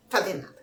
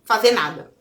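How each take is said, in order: First: Softer, deflated repeat of Fazer nada; quiet. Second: Said in the usual way. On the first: Shown as a demonstration. Vlogger echoing herself, quietly and flatly. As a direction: let Fazer nada fall away quietly. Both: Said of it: "ó".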